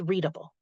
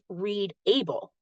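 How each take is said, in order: First: The ending has a reduced schwa vowel. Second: The ending has a full vowel, like the word able. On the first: The speaker calls it right. "but correctly as readable" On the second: The speaker calls it wrong. "read the word not as read able"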